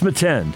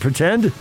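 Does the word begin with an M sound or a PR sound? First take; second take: M; PR. First: The word begins with an M sound. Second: The word begins with a PR sound. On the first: The speaker calls it wrong. "He always said metend" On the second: The speaker calls it right. "Do you mean pretend?"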